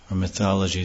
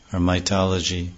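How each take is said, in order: First: "mythology" corrected with a proper th sound; self-correction. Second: "mythology" slipped as "maitology" with a t sound; slip of the tongue. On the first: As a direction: fix "mythology" carefully with th. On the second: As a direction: trip on "mythology", saying t for th. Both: Real, not acted.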